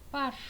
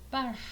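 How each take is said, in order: First: The final r is voiceless. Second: The same.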